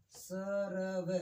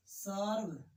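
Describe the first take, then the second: First: सरव drawn out very slowly as separate syllables; slow broken syllables. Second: Said in the usual way. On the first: Shown as a demonstration. Teacher splitting सर्व slowly for pupils. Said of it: "उससे पहले उच्चरित होगा".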